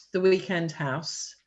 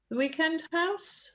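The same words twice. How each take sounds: First: Said in the usual way. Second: Higher, rising disbelieving echo; surprised echo question. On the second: Acted. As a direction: repeat it back, surprised. Echoed question in translation.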